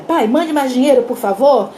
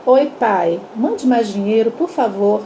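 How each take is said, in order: First: Annoyed reading. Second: Gentle reading. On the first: Father reading daughter's telegram aloud, annoyed. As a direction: read it out as a curt demand. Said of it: "o pai estourou". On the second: Mother rereading daughter's telegram to father, gently. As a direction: imitate a mother reading it sweetly. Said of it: "ela lê pra ele assim". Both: Retold or imitated.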